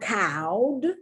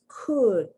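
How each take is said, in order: First: The vowel sounds like the one in cow. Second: The vowel sounds like the one in book. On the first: The speaker calls it wrong. "It's not cowed" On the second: The speaker calls it right. "the short U sound"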